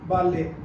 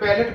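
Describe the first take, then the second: First: The word ends without any t sound. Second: The word ends with a pronounced t sound. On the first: The speaker calls it right. "इसकी correct pronunciation है बाले, टी silent है।" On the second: The speaker calls it wrong. "इसको teacher बैलेट पढ़ाते हैं।"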